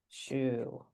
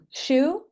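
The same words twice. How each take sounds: First: It is said in a robot voice. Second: It is said in a normal voice.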